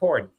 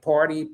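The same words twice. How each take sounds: First: The word is said in a relaxed, natural way. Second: The word is said carefully and deliberately. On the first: It is the speaker's everyday pronunciation. "but you heard it's like party" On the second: It is the speaker's deliberate pronunciation. "I can if I really think about it"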